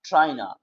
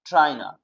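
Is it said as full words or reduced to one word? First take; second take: reduced; reduced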